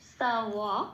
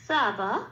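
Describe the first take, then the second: First: The middle consonant is a W sound. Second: The middle consonant is a B sound. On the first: The speaker calls it right. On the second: The speaker calls it wrong.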